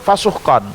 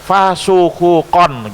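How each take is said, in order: First: The h is followed directly by k. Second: An u vowel comes between h and k. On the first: "Kalau dengan sukun" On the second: "kalau dengan doma"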